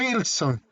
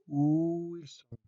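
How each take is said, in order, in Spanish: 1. La palabra empieza con un sonido g fuerte. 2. La palabra empieza con un sonido u alargado. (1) "¿Y cómo le pronuncian uno? Gu, gu, gu, Wilson" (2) "le alargas la U"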